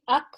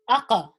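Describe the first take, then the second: First: The final consonant is cut off without release. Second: The final consonant ends with a slight bounce. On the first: The speaker calls it wrong. "I wouldn't say ak" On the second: The speaker calls it right. "that slight bounce is what we're referring to"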